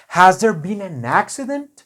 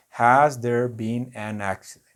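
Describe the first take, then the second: First: "Has there been an accident?" lifted higher and louder with real question energy; asked with energy. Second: Said in the usual way. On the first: Shown as a demonstration. Teacher shows students a lively question tune. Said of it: "una pregunta es con ganas". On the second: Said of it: "Eso no es una pregunta".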